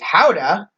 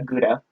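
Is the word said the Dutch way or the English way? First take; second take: Dutch; English. First: It starts with a breathy Dutch throat sound. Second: It starts with a hard English G sound. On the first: The speaker calls it right. "how the Dutch pronounce it is" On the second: The speaker calls it wrong. "correcting people who say uh"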